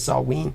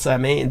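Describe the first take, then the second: First: The name is given its Celtic pronunciation. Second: The name is given a literal English pronunciation. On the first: The speaker calls it right. "its Celtic pronunciation is Salween" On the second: The speaker calls it wrong. "You'd think it was called Samhain"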